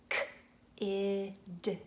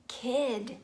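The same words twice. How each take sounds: First: "K-id" split into separate sounds; segmented sounds. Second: Put-on "kid" blended, higher and louder; blended word. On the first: Parent segmenting a word for a child. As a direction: say "K-id" as its sounds apart. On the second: Parent blending sounds into a word for a child. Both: Shown as a demonstration. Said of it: "blending just sounds".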